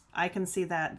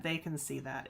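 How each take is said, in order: First: Said in the usual way. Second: "They" stressed, rest dropped soft. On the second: Shown as a demonstration. Vlogger noting the clerks see it too, stressing "They". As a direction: lean on "They", then let it fall away.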